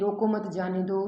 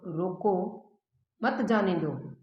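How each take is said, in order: First: It is read straight through without a pause. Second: There is a pause after रोको.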